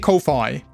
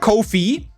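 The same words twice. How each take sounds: First: The word sounds like Wi-Fi. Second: The word sounds like coffee. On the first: "some other people say Ko-fi" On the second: "I feel Ko-fi"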